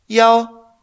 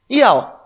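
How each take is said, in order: First: It is said with a high level first tone. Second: It is said with a falling fourth tone. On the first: It means the number one. "Yao en un primer tono" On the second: It means to want. "Eso sería un cuarto tono"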